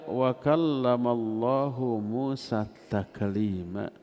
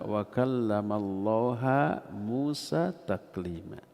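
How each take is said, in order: First: Allah ends with an 'u' vowel. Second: Allah ends with an 'a' vowel. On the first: God is the one who speaks. The speaker calls it right. "hu-nya itu kenapa dibaca hu? Karena Allah fa'il" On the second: God is the one spoken to, denying that He speaks. The speaker calls it wrong. "mereka merubah"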